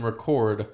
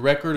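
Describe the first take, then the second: First: Slow reCORD, stressed at the end; second-syllable stress. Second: Slow RECord, stressed at the start; first-syllable stress. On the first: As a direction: say "record" as the verb, re-CORD, slowly. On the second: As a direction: say "record" as the noun, REC-ord, slowly. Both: Shown as a demonstration. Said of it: "emphasis on a different part".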